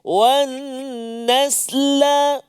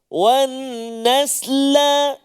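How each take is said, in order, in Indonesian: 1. Konsonan akhir diikuti vokal pendek. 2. Konsonan akhir diikuti vokal pendek.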